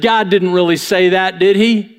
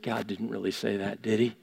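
First: Said in the usual way. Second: Low, much softer, sly doubt planted in the ear; hushed tempting voice. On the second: Retold or imitated. Enemy whispering doubt into your dreams, softly. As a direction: murmur it like the enemy sowing doubt.

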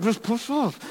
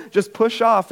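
First: Very soft, high mock strain; strained self-urging. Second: Lightly imitated sister, higher pitch; sister encouraging. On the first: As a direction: squeeze it out under your breath. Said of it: "that whole thing, like". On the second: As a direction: coax from below in a raised pitch. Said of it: "my sister's".

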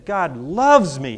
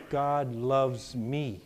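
First: God loves me said firmly and louder; with conviction. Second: Said in the usual way. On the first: Shown as a demonstration. Congregation told to repeat with conviction, firm declaration. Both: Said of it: "Say it again with conviction".

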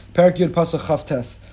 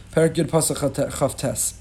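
First: Said in the usual way. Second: "Perek Yud Pasuk Chaf Tes" said slowly, each word spaced out; slow citation. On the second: Shown as a demonstration. Rabbi repeating the verse number for the class, slow and deliberate.

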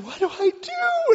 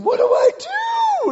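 First: Very high, drawn-out wail; mock panicked call. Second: Mock shriek, very high and drawn out; desperate scream. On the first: Wife asking husband for help, high panicked call. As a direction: imitate a panicked wife calling high and loud. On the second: Wife caught in the current, desperate drawn-out scream. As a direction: scream it in sheer desperation, at full volume. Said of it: "she just screams, she goes, and just desperation".

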